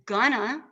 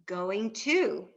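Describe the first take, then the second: First: The words are run together and reduced. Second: Each word is pronounced fully and separately. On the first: The speaker calls it wrong. "Rather than gonna" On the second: The speaker calls it right. "enunciate all our words"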